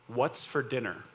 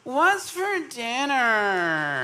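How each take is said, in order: First: It is asked in a plain, normal voice. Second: It is asked in an imitated, put-on voice. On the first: It is an innocent, ordinary question. "I'll say the question in a normal human voice first" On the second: It is the annoying way the kids ask it. "let me ask it the way they ask it"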